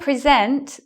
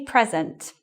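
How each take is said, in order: First: The stress is on the second syllable. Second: The stress is on the first syllable. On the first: It is used as a verb. "And here is the verb. So we do that pattern again" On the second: It is used as a noun. "present here is a noun... we put the stress here"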